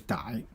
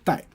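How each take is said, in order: First: It is said with the everyday colloquial reading. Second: It is said with the formal standard reading. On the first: This is the everyday spoken form. "usually you say 逮" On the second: This is the formal form. "formally you say 逮"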